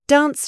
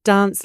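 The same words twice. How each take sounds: First: The vowel is a short A sound. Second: The vowel is a long, deep ah sound. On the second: "long, ah"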